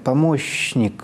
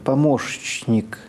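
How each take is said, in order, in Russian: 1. Перед «н» стоит долгий мягкий «ш». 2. Перед «н» идут «ш», а затем «ч». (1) "с долгим мягким «ш»" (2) "«ш» – это щелевой звук. За ним идет «ч»"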